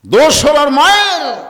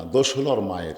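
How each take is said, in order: First: Loud, high-pitched outcry; emphatic shout. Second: Said in the usual way. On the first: Real, not acted. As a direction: hurl the line at the crowd. Same line repeated as outcry. (উঁচু গলায় চিৎকার করে)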